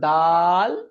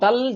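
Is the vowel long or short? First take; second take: long; short. First: The vowel is drawn out long. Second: The vowel is said short, without lengthening. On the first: The speaker calls it right. "টান দেবে" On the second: The speaker calls it wrong. "এখানে কেউ দাল জাল বলবে না"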